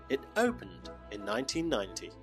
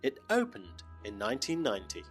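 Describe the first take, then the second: No difference in how they are said.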